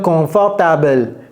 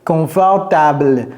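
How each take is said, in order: No difference in how they are said.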